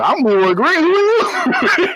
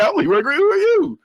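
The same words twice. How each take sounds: First: High, long drawn-out "who are you"; hammed-up imitated dad; retold dad's challenge. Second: Higher, rising mock challenge; retold dad's challenge. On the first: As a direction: challenge the stranger, ending very high and stretched. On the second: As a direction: announce yourself, then question in a high pitch. Retold dad challenging the caller.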